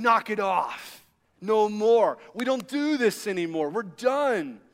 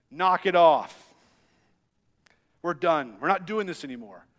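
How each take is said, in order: First: Said in the usual way. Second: Put-on stern dad telling the kids off, firm at first; a hint of a stern dad shutting it down. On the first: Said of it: "He's saying". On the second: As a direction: lay down the law to squabbling boys. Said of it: "this dad voice that comes out of me".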